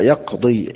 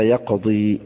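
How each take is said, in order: First: Said in the usual way. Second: يقضي recited softer, ending on a long i; pausal recitation. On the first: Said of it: "كأكثر القراء". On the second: Shown as a demonstration. Teacher recites to students يقضي with the ya kept at the stop. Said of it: "يقف هكذا".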